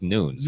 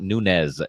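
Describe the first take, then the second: First: The name is said in a Portuguese style. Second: The name is said in a Spanish style. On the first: The speaker calls it right. "it's Nunes" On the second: The speaker calls it wrong. "they pronounce them wrong"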